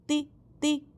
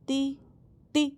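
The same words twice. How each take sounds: No difference in how they are said.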